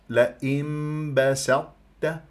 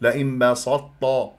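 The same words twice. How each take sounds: First: The S and T sounds are light and plain. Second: The S and T sounds are heavy and emphatic. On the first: The speaker calls it right. "هكذا بهذه الطريقة" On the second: The speaker calls it wrong. "أفخم السين وأفخم التاء"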